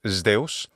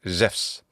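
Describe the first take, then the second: First: It is said in classical Attic Greek pronunciation. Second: It is said in modern Greek pronunciation. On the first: "in classical Attic pronunciation is" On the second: "In modern Greek pronunciation, though"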